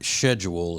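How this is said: It is said with a British pronunciation.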